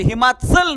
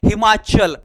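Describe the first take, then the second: First: The च is a dental 'ts' sound. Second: The च is a palatal 'ch' sound. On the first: The speaker calls it wrong. "हिमाचल नाही" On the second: The speaker calls it right. "हिमाचल म्हणायचं"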